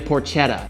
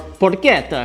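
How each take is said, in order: First: The word is said in a casual, ordinary way. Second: The word is said in a fussy, exaggerated way.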